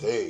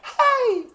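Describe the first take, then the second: First: It is said in a deep voice. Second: It is said in a high voice. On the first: "You can have a deep voice" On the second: "You can have a high"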